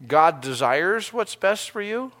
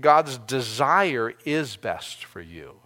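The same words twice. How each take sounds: First: "God desires what's best for you" said slowly and evenly; slow, weighed reading of "desires"; stress on desires. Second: "God's desire" said slowly, falling on "God's"; stress on God's desire. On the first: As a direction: lean on "desires" and let it sit. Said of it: "you can say it another way". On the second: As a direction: hit "God's" and slow the whole line down. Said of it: "I like to see it". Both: Shown as a demonstration.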